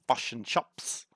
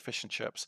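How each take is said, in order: First: The vowel in chips is exaggerated toward chops. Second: The vowel in chips is said naturally. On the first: Outsiders claim the accent sounds like this. The speaker calls it wrong. "the same way that they say we say fish and chops" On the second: Locals say it this way. The speaker calls it right. "We say fish and chips"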